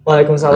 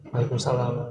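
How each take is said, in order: First: It is said louder and clearer. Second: It is said quietly and softly.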